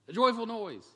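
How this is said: It is said with lively excitement.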